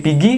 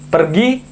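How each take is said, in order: First: The word is shortened, with the r dropped. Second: The word is said in full, with the r. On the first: A shortened local form of the word. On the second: The standard form of the word.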